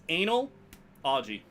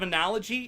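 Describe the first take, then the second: First: The word starts with an 'anal' sound. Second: The word starts with an 'uh-nal' sound. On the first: "I pronounce it analogy. On purpose" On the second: "Instead of analogy"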